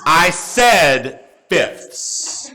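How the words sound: It is said in a firm, stern tone.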